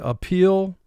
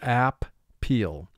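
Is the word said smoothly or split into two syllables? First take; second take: smooth; split. First: It is said smoothly as one normal word. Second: It is split into two separate, clear syllables. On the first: This is how it is said in everyday speech. "conversationally we say appeal" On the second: This is a pronunciation used to help with spelling. "for spelling, our pronunciation within ourselves silently is app-peel"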